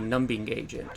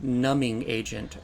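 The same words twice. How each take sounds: First: The B in numbing is pronounced. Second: The B in numbing is silent. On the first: This is how the speaker used to say it. "I would say" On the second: This is how other people say it. "somebody say like"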